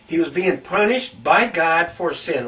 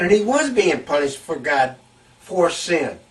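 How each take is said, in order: First: "by" punched to correct the wording; stress on BY. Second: "was" stressed to affirm it. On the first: Preacher correcting his own wording, stress on "by". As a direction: restate it, leaning on "by". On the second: Preacher confirming what people thought, stress on "was". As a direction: lean on the word "was". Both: Real, not acted.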